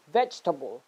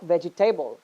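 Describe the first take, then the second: First: "vegetable" as VEJ-tuh-bul; correct syllables. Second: "vegetable" as vej-ee-TAY-bul; wrong syllables. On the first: Teacher correcting students, "vegetable" shortened to VEJ-tuh-bul. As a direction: squeeze "vegetable" into three syllables, stress VEJ. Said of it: "it is". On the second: Teacher showing the mistake, "vegetable" ending in full "table". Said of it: "the other one is not". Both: Shown as a demonstration.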